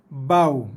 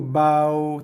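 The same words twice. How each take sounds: First: The waw sound is hard, not soft. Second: The waw sound is soft and gentle. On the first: The speaker calls it wrong. "bunyi yang sama tapi sifatnya salah" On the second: The speaker calls it right. "wajib dibaca dengan lembut dan lunak"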